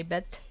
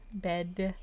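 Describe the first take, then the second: First: Bet said with a crisp T for bed; German-style final T. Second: Said in the usual way. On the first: Shown as a demonstration. Streamer explains German accent tip, says bet with a hard T. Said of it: "you're supposed to say bet". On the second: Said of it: "instead of saying bed with a D".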